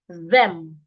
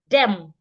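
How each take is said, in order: First: The word begins with a voiced th sound. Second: The word begins with a plain d sound. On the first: The speaker calls it right. "your tongue must be outside" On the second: The speaker calls it wrong. "When you put your tongue inside, it's going to sound like D E M"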